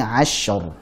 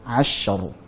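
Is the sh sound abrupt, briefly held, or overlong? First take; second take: briefly held; briefly held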